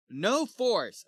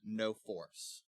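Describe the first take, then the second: First: Higher, louder bold declaration; Kay. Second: Said in the usual way. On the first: Retold or imitated. Sir Kay brushes off his companions' doubts, bold declaration. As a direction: declare "No force" boldly, pitched up. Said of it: "Kay's like". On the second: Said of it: "I didn't understand what that meant".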